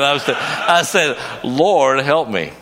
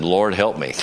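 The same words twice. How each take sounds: First: Higher and louder, a desperate cry for help; desperate plea. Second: Said in the usual way. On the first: Retold or imitated. Preacher caught in the current, crying out desperately. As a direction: plead like you're drowning. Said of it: "I was not laughing then".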